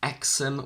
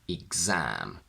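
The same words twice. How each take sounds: First: The x is pronounced as ks. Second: The x is pronounced as gz. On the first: The speaker calls it wrong. "We don't say exam" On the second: The speaker calls it right. "we say exam"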